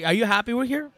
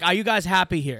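First: Wondering. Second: Said in the usual way. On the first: Retold or imitated. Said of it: "like, wondering". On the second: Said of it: "He just asked me with a, like, wondering".

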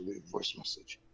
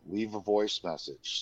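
First: Muttered repeat. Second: Said in the usual way. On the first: Retold or imitated. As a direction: mutter it back softly while writing. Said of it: "So I'm like". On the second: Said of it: "He's like".

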